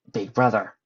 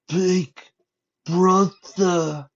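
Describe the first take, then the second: First: Lightly rasped creature voice at usual pitch; a rough breath, then a hint of raspy monster. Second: High, loud, strained creature voice; a malformed child creature calling out slowly; raspy, dying voice. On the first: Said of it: "saying in a very raspy voice". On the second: A narrator's reading. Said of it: "it said in a raspy, dying voice".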